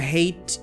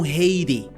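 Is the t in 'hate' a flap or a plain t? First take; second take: plain t; flap. First: The t is said as a plain t. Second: The t is said as a flap. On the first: The speaker calls it right. "o som é hate" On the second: The speaker calls it wrong. "e não hate"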